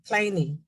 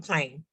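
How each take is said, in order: First: The final e is sounded as an extra syllable. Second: The final e is silent, one syllable. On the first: The speaker calls it wrong. "They would never pronounce it that way" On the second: The speaker calls it right. "They would go plain"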